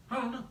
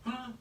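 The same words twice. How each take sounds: The two takes are said the same way.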